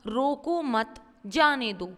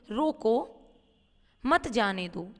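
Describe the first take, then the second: First: रोको मत grouped together, break, then जाने दो; pause after मत. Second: रोको, a full stop for a moment, then मत जाने दो; pause after रोको. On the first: Teacher showing how the comma changes meaning, break after मत. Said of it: "क्योंकि अल्प विराम". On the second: Teacher giving an example of the short comma, pause after रोको. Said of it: "थोड़े समय के लिए". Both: Shown as a demonstration.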